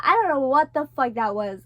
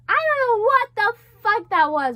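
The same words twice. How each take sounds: First: Said in the usual way. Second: Higher, louder, exclaiming in shock; loud disbelief. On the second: Real, not acted. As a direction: blurt it out, still rattled. Stunned after the nightmare.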